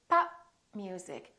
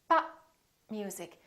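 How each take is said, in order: Both takes have the same delivery.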